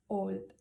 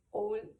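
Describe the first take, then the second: First: Said in the usual way. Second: Put-on "old" said with a heavier, more marked Scottish vowel; a strong Glasgow-style "old". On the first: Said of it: "Old, ellos dirían old". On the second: Shown as a demonstration. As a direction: lean into a thick Scottish "old". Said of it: "mucho más marcado".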